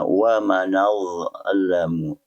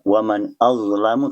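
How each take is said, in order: First: The nun runs straight into azlamu without a stop. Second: A glottal stop separates waman and azlamu. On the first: "Hamzah dipindahkan kepada nun"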